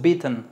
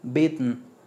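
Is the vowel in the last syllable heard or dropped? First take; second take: heard; dropped. First: The vowel in the last syllable is pronounced. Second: The last syllable is only a syllabic n. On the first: The speaker calls it wrong. "no suena la E, no es beaten" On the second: The speaker calls it right. "es beaten"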